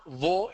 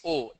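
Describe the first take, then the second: First: O with a w glide, rising; "wo" for the letter O; wrong O, "wo". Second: O as a pure vowel, no w; O without any glide; standard O. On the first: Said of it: "It's not wo". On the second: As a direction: say O straight on the vowel. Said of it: "it's O". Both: Shown as a demonstration.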